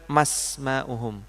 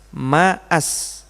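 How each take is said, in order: First: Ma runs straight into smauhum without a stop. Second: A glottal stop separates ma from asma'uhum. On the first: The speaker calls it wrong. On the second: The speaker calls it right. "Makanya kita bacanya"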